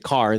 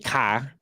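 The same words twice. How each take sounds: First: It is said in a California-style accent. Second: It is said in a Boston accent. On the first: "they don't say car" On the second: "if you go to Boston, they say car"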